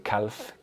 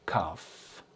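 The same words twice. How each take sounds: First: The L sound is pronounced in the word. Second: The L sound is silent in the word. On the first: The speaker calls it wrong. "do not pronounce the L. You don't say calf" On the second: The speaker calls it right. "No, calf"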